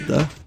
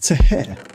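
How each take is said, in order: First: The word is said in its usual short form. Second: The word is sounded out letter by letter. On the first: "You can't sound out the word the" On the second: "Say the word the out if you were sounding it out phonetically"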